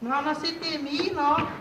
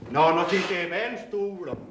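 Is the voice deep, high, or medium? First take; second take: medium; deep. First: A medium-deep, soft voice is used. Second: A deep, rumbling voice is used.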